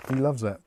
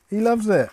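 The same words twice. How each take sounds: First: Said in the usual way. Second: Bad Irish accent, higher and louder; hammy Irish accent, pitched up. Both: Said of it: "[name]'s good at doing Irish now".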